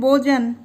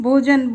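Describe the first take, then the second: Both takes have the same delivery.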